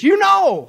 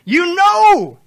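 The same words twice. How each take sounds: First: "You know" flung out high and loud; "You know" called out high and loud; stress on you know. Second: "You know" belted high and loud; "You know" shouted up high for emphasis; stress on you know. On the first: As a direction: lift "You know" right up. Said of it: "The Greek literally says this". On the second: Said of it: "Oh, wait till we get to this". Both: Shown as a demonstration.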